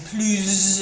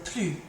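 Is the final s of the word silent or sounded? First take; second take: sounded; silent. First: The final s is sounded. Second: The final s is silent. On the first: The next word starts with a vowel. "becoming plus if it was something that was going to start with a vowel next" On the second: This is the usual form of the word. "just like before with the plus"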